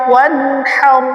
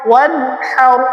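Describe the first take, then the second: No difference in how they are said.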